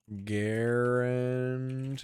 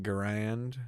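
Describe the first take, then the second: First: Garand as GAIR-und, drawn out; stress on first syllable. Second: Garand as guh-RAND; stress on second syllable. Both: Shown as a demonstration. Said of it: "Isn't it M one Garand?".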